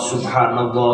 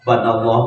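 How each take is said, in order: First: Every syllable of the phrase is said fully. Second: The first syllables are dropped, leaving it clipped. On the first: The speaker calls it right. "Hari awal nama subhanallah" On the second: The speaker calls it wrong. "Hari pas ujungnya jadi banallah"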